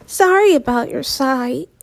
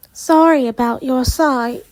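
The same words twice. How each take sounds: First: Said in the usual way. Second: Put-on light British accent. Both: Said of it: "I don't know why she's British".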